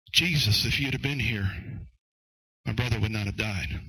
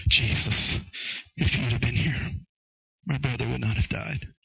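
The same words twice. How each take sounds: First: Matter-of-fact address to Jesus, then falling away; first approach, Martha's. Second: Hushed, halting grief, acted with restraint; second approach, Mary's. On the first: Acted. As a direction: state the complaint straight out to Jesus. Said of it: "the first approach was". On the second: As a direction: say it as a broken-hearted appeal, pausing between phrases. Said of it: "The second approach was".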